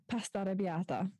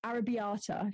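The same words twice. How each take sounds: First: "arrabbiata" in an Italian accent. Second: "Arrabbiata" in an English accent. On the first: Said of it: "have to say it in the accent". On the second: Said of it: "if you want it in an English accent". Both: Shown as a demonstration.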